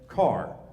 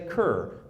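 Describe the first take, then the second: First: The name rhymes with 'far'. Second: The name rhymes with 'fur'. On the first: This is how the family itself said it. "The family pronounced it as Carr" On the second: This is how the spelling suggests it is said. "Looks like you should say Kerr"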